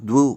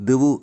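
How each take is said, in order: The two takes are said the same way.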